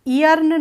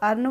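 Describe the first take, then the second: First: An extra 'e' vowel comes before the word. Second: The word starts directly with its vowel. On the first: The speaker calls it wrong. "ई अर्न नहीं बोलते हैं" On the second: The speaker calls it right. "इसको अर्न बोलते हैं"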